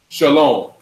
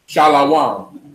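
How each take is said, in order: First: It is said with two syllables. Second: It is said with three syllables. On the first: The speaker calls it right. "instead of shalom" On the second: The speaker calls it wrong. "believing that every consonant has only a, a, a vowel on it"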